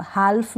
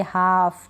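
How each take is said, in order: First: हाल्फ with a clear L before the F; L wrongly sounded. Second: हाफ with a long vowel straight into F; drawn-out model हाफ, L left out; silent L. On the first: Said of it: "हाल्फ नहीं पढ़ेंगे". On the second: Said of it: "हाफ पढ़ेंगे". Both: Shown as a demonstration.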